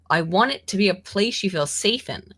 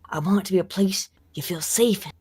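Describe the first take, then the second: First: It is said in the speaker's ordinary voice. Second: It is said in a put-on imitation voice.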